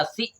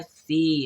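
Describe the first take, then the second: First: "सी" cut short, like si; wrong-example short "सी"; wrong short vowel. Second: "सी" held long as see, falling; right-example long "सी"; correct long vowel. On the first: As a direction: say "सी" with a quick short i. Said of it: "नहीं, हम पढ़ते हैं सी". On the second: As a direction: stretch the ee in "सी". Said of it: "हम पढ़ते हैं सी". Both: Shown as a demonstration.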